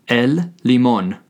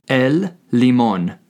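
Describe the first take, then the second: The two takes are said the same way.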